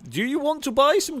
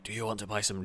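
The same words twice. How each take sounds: First: The question is said at normal loudness. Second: The question is said more quietly.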